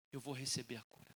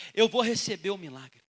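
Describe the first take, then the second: First: Very soft, low murmur; hushed resolve. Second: Full-voiced proclamation, punched at the start; firm declaration. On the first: Acted. Woman telling herself she will be healed, hushed resolve. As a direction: say it privately, almost under the breath. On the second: Woman proclaiming faith in her miracle, firm declaration. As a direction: declare it out with conviction. Same resolve repeated out loud.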